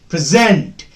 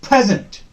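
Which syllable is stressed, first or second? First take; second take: second; first. First: The stress is on the second syllable. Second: The stress is on the first syllable. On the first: The word is used as a verb. "When present is used as a verb, the second syllable will be stressed" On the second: The word is used as a noun or adjective. "When you use as a noun or adjective, we stress the first syllable"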